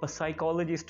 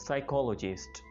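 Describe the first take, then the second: First: A P sound is heard before the S. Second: The word begins directly with the S sound. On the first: The speaker calls it wrong. "इसको कुछ लोग साइकोलॉजिस्ट बोल रहे होते जो कि काफी फनी और स्ट्रेंज है" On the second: The speaker calls it right. "इसमें हमने पी प्रनाउंस नहीं करना होता"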